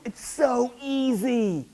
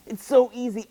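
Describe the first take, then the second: First: Higher, slow, drawn-out sell; drawn-out salesy. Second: Higher, louder quick "It's so easy"; emphatic salesy. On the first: Church member reassuring a newcomer, drawn-out salesy. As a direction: stretch "so easy" out sweetly. Church selling easy faith. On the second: Church member reassuring a newcomer, brisk and emphatic. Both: Retold or imitated.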